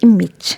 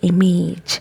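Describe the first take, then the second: First: The last syllable has a short i sound. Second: The last syllable sounds like the word age. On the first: The speaker calls it right. "It has I sound here" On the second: The speaker calls it wrong. "Most of the people pronounce it like image"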